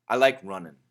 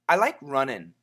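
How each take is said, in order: First: The ending is a reduced 'un' sound. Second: The ending is a shorter 'in' sound. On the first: "if we say it really fast, it sounds like un" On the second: "if we say it a little bit faster, it sounds like in"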